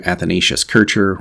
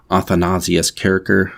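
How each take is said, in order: First: Said in the usual way. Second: Athanasius Kircher said the affected, scholarly foreign way; pretentious pronunciation. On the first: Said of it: "I go with Kircher instead". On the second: Shown as a demonstration. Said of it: "sort of pretentiously pronounce as".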